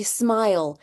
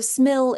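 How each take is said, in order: First: "smile" said with a long i, like "eye"; long vowel demo. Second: "smill" said with a short i; short vowel demo. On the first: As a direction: let the i in "smile" say its name. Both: Shown as a demonstration. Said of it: "your silent E".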